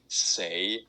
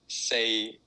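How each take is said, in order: First: It is said in the tone meaning die. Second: It is said in the tone meaning four. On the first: The word means die or dead. "if you say say is die or dead" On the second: The word means four. "say is four"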